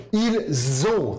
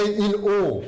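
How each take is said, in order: First: "Ils ont" said ilz-ont with a clear z link; correct liaison. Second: "ils ont" said il-ont with no z sound; wrong, no liaison. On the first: Teacher giving students the correct form after the mistake, with liaison. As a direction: put the z back into "Ils ont". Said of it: "som de Z". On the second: Teacher showing students the mistake to avoid, no liaison. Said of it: "não é ils ont". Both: Shown as a demonstration.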